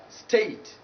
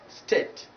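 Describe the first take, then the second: First: "state" with a gliding ay; diphthong ay. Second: "state" said as "stet"; wrong short vowel. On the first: Teacher correcting the error, diphthong ay. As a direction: glide from e to i in "state". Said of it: "because it is taking this diphthong". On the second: Teacher showing learners the error, short e. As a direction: flatten "state" to a short e, no glide. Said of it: "not state, but state". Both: Shown as a demonstration.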